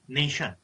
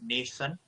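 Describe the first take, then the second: First: The ending is said with an 'sh' sound. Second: The ending is said with an 's' sound. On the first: The speaker calls it right. "have a sharp and uh, accurate pronunciation. That is nation" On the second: The speaker calls it wrong. "T I O N is shun, not sun. You were saying nation, something like that you talk"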